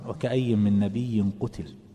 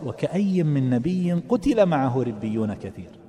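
First: It stops with a pause after قتل. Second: It runs on without a pause after قتل.

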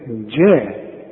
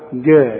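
First: The word starts with a soft j sound. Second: The word starts with a hard g sound. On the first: The speaker calls it right. "عطش الجيم دائما" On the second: The speaker calls it wrong. "ما تقولش جعل جاء"

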